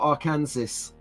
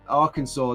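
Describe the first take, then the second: First: The word ends with a sounded final s. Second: The word ends without a sounded final s. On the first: The speaker calls it wrong. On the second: The speaker calls it right. "See how I pronounced that right?"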